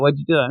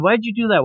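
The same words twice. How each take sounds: First: Said in the usual way. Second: Pitched high, mock disbelief; exasperated ask. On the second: Viewer asking the girl about her sand tray, pitched-up disbelief. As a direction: throw up your hands asking why. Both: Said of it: "And you're like".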